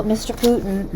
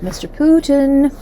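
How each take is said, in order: First: Said in the usual way. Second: Higher, slower, louder call of "Mister Putin"; drawn-out teasing "Mister Putin", pitched up; mock call-out. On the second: Shown as a demonstration. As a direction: sing out "Mister Putin" like calling a naughty child.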